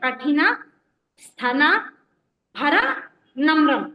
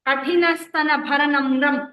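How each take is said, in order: First: The phrase is split with pauses between parts. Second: The phrase runs together without pauses. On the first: "దాన్ని కూడా విడదీసి చెప్పండి అంటే" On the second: "అదంతా ఒకటే మాట"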